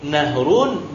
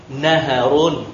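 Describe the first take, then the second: First: "nahrun" in two syllables, h closed straight onto run; nahrun without middle vowel. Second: "naharun" in three syllables, an a after the h; naharun with middle vowel. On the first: Teacher showing one allowed reading, "nahrun" as two syllables. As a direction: say "nahrun" slowly as nah-run. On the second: Teacher showing the other allowed reading, "naharun" as three syllables. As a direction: say "naharun" slowly as na-ha-run. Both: Shown as a demonstration. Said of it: "beberapa metode lafaz".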